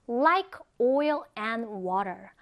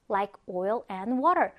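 First: Slow, drawn-out "Like oil and water"; slow model reading. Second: "Like oil and water" in a connected, quicker flow; quicker repeat. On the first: Teacher models an English idiom for learners, slow and deliberate. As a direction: stretch out each word of "Like oil and water" for learners. Models phrase slowly, then quicker. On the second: Teacher repeats the English idiom for learners, connected and quicker. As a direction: run "Like oil and water" together as one phrase. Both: Shown as a demonstration.

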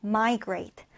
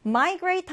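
First: Migrate with the first syllable MI stressed, slow and clear. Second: Said in the usual way. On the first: Shown as a demonstration. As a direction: hit MI in Migrate, let grate fall away. (Migrate 첫 음절 MI에 강세) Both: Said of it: "첫 음절의 강세를 두고요".

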